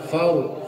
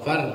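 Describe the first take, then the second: First: The r sound is heavy and thick. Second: The r sound is light and thin. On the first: The speaker calls it right. "Kalau tebal" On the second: The speaker calls it wrong. "far belum tebal"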